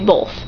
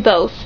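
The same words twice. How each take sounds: First: The word has an L sound before the th. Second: The word has no L sound before the th. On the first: "I just prefer to say both" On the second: "But I can say both"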